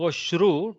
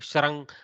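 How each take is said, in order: First: The sound after 'sh' is an u vowel. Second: The sound after 'sh' is a syllabic r. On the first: This is how speakers in the south say it. The speaker calls it wrong. "don't go Shru ... Shru is the southern accent" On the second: This is the actual pronunciation. The speaker calls it right. "Try to go Shrang ... There is no A. There is no E. There is no U"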